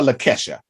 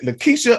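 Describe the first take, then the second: First: Lakesha with a short e, "luh-KESH-uh"; Lakesha, stressed on a short "KESH"; KESH pronunciation. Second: Lakeisha with a long ee, "luh-KEE-shuh"; Lakeisha, stressed on a long "KEE"; KEE pronunciation. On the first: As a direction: say the middle of Lakesha to rhyme with "mesh". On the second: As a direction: say the middle of Lakeisha as "key". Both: Shown as a demonstration. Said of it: "is it Lakeisha or Lakesha".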